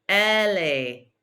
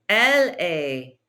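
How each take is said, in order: The two takes are said the same way.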